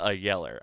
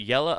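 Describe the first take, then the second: First: "Yeller" with a sounded final R. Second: "Yella" ending in an open "uh"; Yella without R. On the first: Checking the movie quote, "Yeller" said with its R. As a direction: finish "Yeller" on an "er". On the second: Checking the movie quote, "Yella" said with no final R. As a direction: drop the R at the end of "Yella". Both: Shown as a demonstration. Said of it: "is it Yella? A Yeller?".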